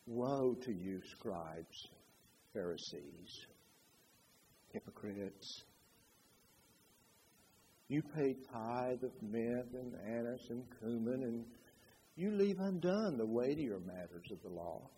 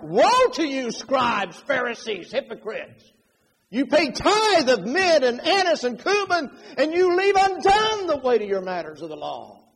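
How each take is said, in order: First: Very soft, low, unhurried scripture reading; hushed and gentle, no force at all; mild, toneless rebuke. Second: High, loud, thundering denunciation; forceful preacher's condemnation, raised and loud; angry rebuke. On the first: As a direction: quote the rebuke meekly, with long pauses. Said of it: "I really don't think he was saying". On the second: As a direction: rebuke them at full force, hammering each charge. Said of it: "I think Jesus was more like". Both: Shown as a demonstration.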